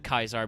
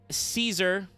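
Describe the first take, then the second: First: The name begins with a hard K sound. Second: The name begins with a soft S sound.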